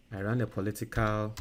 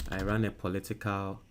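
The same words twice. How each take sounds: The two takes are said the same way.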